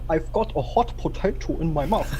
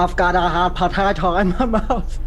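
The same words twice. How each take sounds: First: It is said in a British English accent. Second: It is said in an American English accent. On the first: "for British English" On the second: "for American English"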